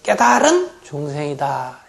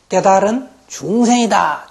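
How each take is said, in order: First: The word 깨달은 carries the strong emphasis. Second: The word 중생 carries the strong emphasis. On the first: The awakened being is in fact a buddha. "깨달은, 아주 강조했어" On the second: Though awakened, it is still an ordinary being. "중생을 좀 힘있게 발음하면"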